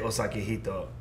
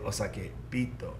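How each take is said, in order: First: The second word starts with an h sound. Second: The second word starts with a b sound. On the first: The speaker calls it wrong. "you don't say osake hito" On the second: The speaker calls it right. "you say osake bito"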